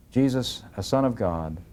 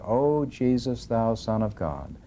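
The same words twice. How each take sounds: First: Said in the usual way. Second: Slowed, pleading reading of the cry; slow prayerful plea. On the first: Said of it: "Notice that". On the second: A narrator's reading. Teacher reading Alma's cry to God, slow and pleading. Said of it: "Yea, I did cry out".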